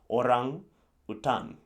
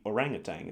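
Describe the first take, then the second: First: It is said as two Indonesian-style words. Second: It is said as one American-style word.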